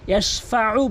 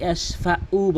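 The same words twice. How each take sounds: First: ইয়াশফাউ with throat-squeezed last vowel; correct Ayn. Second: ইয়াশফাউ with a plain "u" ending; hamza for Ayn. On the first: Teacher correcting learners, ইয়াশফাউ with Arabic Ayn. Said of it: "ইয়াশফাউ বলতে হবে". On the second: Teacher showing the common error, ইয়াশফাউ with hamza. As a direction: say ইয়াশফাউ as yash-fa-'u, light catch. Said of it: "আইনের জায়গায় হামজার উচ্চারণ". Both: Shown as a demonstration.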